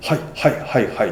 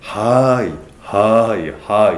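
First: The replies are short and quick. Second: The replies are drawn out and slow.

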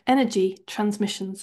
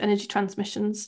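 First: The phrase is said slowly and clearly. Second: The phrase is said quickly and rushed. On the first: The speaker calls it right. "I'll say that a bit clearer" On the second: The speaker calls it wrong. "I always say it really fast"

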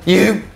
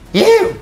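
First: It is said in a lower voice. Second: It is said in a higher voice.

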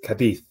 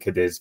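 First: The name is said with a Spanish-style pronunciation. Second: The name is said with an English-style pronunciation. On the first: The speaker is being cultured. "If you're cultured, you pronounce it like Alex" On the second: The speaker is keeping it easy. "for sake of ease"

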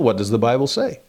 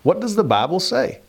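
First: It is said in his ordinary accent. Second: It is said in a Southern accent.

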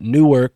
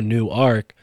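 First: It is run together into one short word. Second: It sounds like two separate words, new ark. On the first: It is the usual name of the town. "but Newark, New Jersey" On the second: It points to the idea of a new ark. "nobody really pronounces it the way we are right now"

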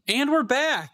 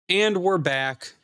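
First: It is said in an upbeat tone. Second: It is said in a sad tone.

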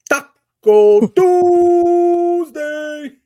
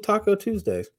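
First: It is said in an imitated, put-on voice. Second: It is said in a plain, ordinary voice. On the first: The speaker calls it right. "I feel like you have to say it like LeBron does" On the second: The speaker calls it wrong. "I feel like you didn't say it right"

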